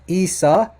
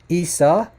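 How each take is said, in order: No difference in how they are said.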